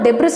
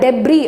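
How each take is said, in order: First: The word ends with an s sound. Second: The word ends without an s sound. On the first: The speaker calls it wrong. "அந்த டெப்ரிஸ் தான் read பண்ணணும்னு தோணும்" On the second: The speaker calls it right. "இந்த எஸ்ஸை நீங்கள் cancel பண்ணிட்டு"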